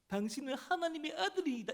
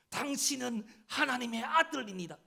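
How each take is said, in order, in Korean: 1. 놀리듯 비웃는 말투로 말합니다. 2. 긴장되고 괴로운 외침으로 말합니다. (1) "에 하면서 ... 이런 말투 아닙니다" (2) "정말 힘들어하면서 까 하면서"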